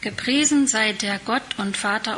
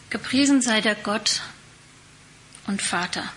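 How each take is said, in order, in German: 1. Er wird schneller, ohne Pausen gelesen. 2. Er wird langsam gelesen, mit Pausen.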